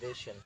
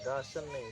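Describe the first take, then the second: First: The first vowel is an 'ay' sound. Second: The first vowel is an open 'ah' sound. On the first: The speaker calls it right. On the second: The speaker calls it wrong.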